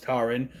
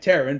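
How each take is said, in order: First: "Taran" with first vowel as in "car"; correct name pronunciation. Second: "Taran" with first vowel as in "air"; pronounced as spelled. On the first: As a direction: say "Taran" like TAR-un, with an open "ah". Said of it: "but it's pronounced Taran". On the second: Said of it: "spelled like Taran, but it's pronounced". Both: Shown as a demonstration.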